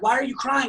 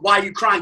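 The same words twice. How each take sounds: First: It is said in a calm voice. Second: It is yelled loudly.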